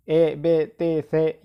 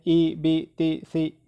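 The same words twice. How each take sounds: First: ए, बे, ते, से with an open "ay" vowel; majhool zer sound. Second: ई, बी, ती, सी with a clear "ee" vowel; maroof zer sound. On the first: Teacher showing what to avoid, ए, बे, ते, से with "ay". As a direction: say ए, बे, ते, से with e instead of i. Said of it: "ये मजहूल है, ऐसा नहीं पढ़ेंगे". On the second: Teacher showing how zer is read, ई, बी, ती, सी with "ee". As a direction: say ई, बी, ती, सी with close i vowels. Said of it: "मारूफ मतलब है". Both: Shown as a demonstration.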